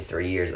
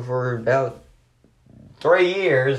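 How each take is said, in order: First: Said in the usual way. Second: Drawn out, higher and louder, sarcastically; sarcastic exaggeration. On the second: Real, not acted. Wrestling fan mocking how long Retribution lasted, sarcastic. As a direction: stretch it with mock emphasis. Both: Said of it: "obviously, I'm being sarcastic".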